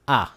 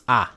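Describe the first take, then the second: No difference in how they are said.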